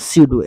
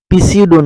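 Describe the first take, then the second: First: The word begins with an s sound, no p. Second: The word begins with a audible p sound. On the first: The speaker calls it right. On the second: The speaker calls it wrong.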